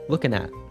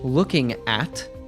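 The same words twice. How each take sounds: First: The final T is cut off in the throat. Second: The final T is fully released. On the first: "The T in at is a glottal T" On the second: "instead of looking at"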